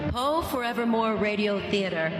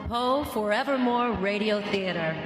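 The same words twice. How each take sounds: The two takes are said the same way.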